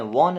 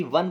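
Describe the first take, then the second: First: वॉन said with a rounded "o" like "wawn"; the way not to say won; wrong won. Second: वन said with a short "a" like "wun"; the right way to say won; correct won. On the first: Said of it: "वॉन नहीं पढ़ते हैं". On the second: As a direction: say वन with a short open vowel. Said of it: "वॉन कोई नहीं बोलेगा इसको". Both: Shown as a demonstration.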